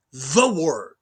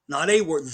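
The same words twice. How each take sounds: First: "the" stressed in "the word". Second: Said in the usual way. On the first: Shown as a demonstration. Teacher stressing THE in "the word". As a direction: lean on "the": THE word. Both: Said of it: "not a word, the word".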